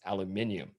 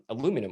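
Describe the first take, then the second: First: The word is said with five syllables. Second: The word is said with four syllables.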